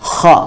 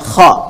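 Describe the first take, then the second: No difference in how they are said.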